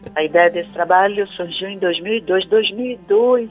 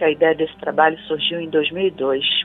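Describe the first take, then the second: First: The sentence is spoken slowly. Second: The sentence is spoken quickly. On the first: This suits a small-town audience. "fala mais devagar" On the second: This suits a big-city audience. "falar na velocidade que eu falo em São Paulo"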